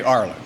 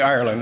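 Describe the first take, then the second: First: Ireland said the Irish way, "AR-land", short first vowel and no "er"; Irish pronunciation. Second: Said in the usual way. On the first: Shown as a demonstration. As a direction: clip "Ireland" down to "AR-lan", the way the Irish say it. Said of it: "they say Ireland". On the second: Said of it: "They don't say Ireland".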